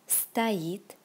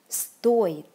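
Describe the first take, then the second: First: The stress is on the second syllable. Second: The stress is on the first syllable. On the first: It means to stand. "the stress goes on the second syllable" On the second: It means to cost. "the stress goes on the first syllable"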